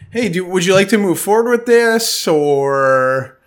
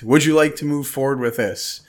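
First: It sounds hesitant and uncertain, trailing off. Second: It sounds firm and confident.

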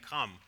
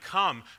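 First: It is said softly, in a small voice. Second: It is yelled loudly, like thunder.

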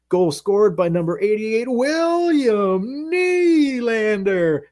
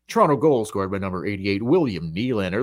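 First: It is announced with hyped, high energy. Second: It is announced flatly, without emphasis.

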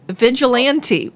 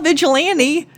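First: The T sound in the word is pronounced. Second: The T sound in the word is dropped. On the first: The speaker calls it right. "It's got a T in it" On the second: The speaker calls it wrong. "Not Vigilante"

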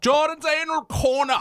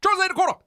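First: It is said at a normal pace. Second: It is said quickly.

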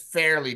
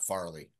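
First: The name begins with the vowel of 'fair'. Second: The name begins with the vowel of 'far'. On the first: The speaker calls it right. "it's Fairly Dickinson" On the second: The speaker calls it wrong. "not Farley"

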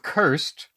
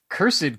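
First: The word is said as one syllable. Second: The word is said as two syllables. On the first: "I go with this single syllable. I go with cursed" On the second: "but cursed kind of sounds old school"

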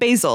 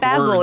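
First: Basil is said with a non-English pronunciation. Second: Basil is said with an English pronunciation. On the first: "instead of basil" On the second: "the English say basil"

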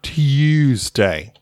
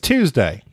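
First: The u is said with a long U sound. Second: The u is said without the long U sound. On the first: The speaker calls it wrong. "it's a long vowel U, she does that" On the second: The speaker calls it right. "it's Tuesday"

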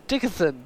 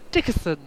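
Both takes have the same delivery.

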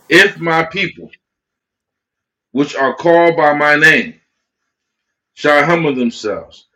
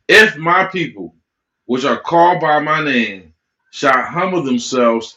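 First: It is read very slowly. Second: It is read at a normal pace.

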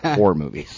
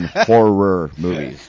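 First: Horror is said almost like the word whore. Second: Horror is said with two full syllables. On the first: The films are adult films. The speaker calls it wrong. "not horror movies" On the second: The films are scary films. The speaker calls it right. "She's done horror movies"

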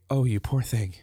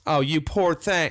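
First: It sounds sincerely compassionate. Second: It sounds condescending, like a Southern church lady.

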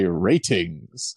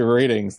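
First: The middle T is crisp and clearly released. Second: The middle T sounds soft, like a D. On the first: "really enunciates that T" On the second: "They don't say ratings"

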